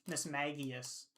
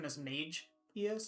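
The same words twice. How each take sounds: First: The middle syllable does not sound like mage. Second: The middle syllable sounds like the word mage. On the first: The speaker calls it right. "but Miss Magius" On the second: The speaker calls it wrong. "I probably would have defaulted to Miss Magius, like a mage"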